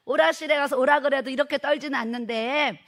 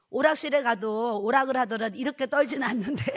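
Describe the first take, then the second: First: Louder repeat. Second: Said in the usual way. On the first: Retold or imitated. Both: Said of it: "사모님".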